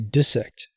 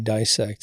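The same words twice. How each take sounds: First: The first vowel is a short i sound. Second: The first vowel is a long i sound. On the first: The speaker calls it right. "you have to make the I short" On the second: The speaker calls it wrong. "Not a single one allowed you to say dissect and be correct"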